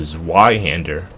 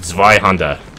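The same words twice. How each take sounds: First: It is said with an English accent. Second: It is said with a German accent.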